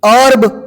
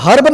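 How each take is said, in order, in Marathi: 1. हा शब्द स्वराने सुरू होतो, 'h' नाही. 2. हा शब्द 'h' आवाजाने सुरू होतो.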